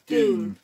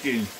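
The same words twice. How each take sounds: First: The name is said with an American pronunciation. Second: The name is said with a British pronunciation. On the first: "If we're American, it'd be Dune" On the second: "but we're English"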